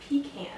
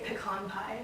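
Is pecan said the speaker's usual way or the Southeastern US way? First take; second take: Southeastern US; usual. First: Pecan is said the Southeastern US way. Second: Pecan is said the speaker's usual way.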